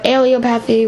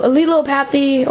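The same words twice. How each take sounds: First: Allelopathy with a long first a, AY-lee-o-path-ee; second pronunciation. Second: Allelopathy with a short first a, uh-LEE-lo-path-ee; first pronunciation. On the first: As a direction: say allelopathy starting with ay, ay-lee-OH-pa-thee. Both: Shown as a demonstration. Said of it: "however you want to pronounce it".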